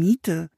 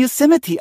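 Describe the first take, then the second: First: The name is read letter by letter as spelled. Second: The name is said with English pronunciation. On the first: The speaker calls it wrong. "las Anne laut vor" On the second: The speaker calls it right. "das spricht man Yosemite aus"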